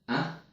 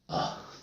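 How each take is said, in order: First: The vowel is full and strong. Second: The vowel is reduced to a weak schwa. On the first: The speaker calls it wrong. "Do I say, ah? No" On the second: The speaker calls it right. "I say, ah. This is called a weak form"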